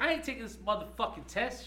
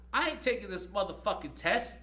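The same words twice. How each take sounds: First: High, loud defiant yell; imitating the student yelling in class; said all loud. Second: Loud, high defiant outburst; imitating a student's loud refusal; loud defiance. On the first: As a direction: belt out the refusal in her voice. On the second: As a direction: retell her shouting she won't take the test. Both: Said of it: "she says all loud".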